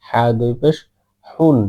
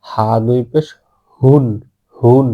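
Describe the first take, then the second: First: হুন with the other Arabic Ha, a hissier throat h. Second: হুন with the big Arabic Ha, loud and full. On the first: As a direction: contrast হুন against the big-Ha version. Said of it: "আর এটা হচ্ছে". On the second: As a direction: demonstrate a big, strong হুন. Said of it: "বড় হা". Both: Shown as a demonstration.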